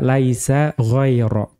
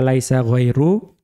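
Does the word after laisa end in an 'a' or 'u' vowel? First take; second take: a; u. First: The second word ends in a short a. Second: The second word ends in a short u. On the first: The word is the predicate of laisa. "dan boleh juga dibaca mansub" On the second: The word is the subject of laisa. "ya dibaca laisa ghairu, itu dianggap mu'rab tapi tanpa tanwin"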